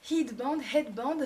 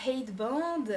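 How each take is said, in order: First: Headband said the English way, h breathed at the start; mock English accent on headband, headband; playful English accent on headband, rising at the end. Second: Said in the usual way. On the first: Shown as a demonstration. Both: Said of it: "mon accent anglais".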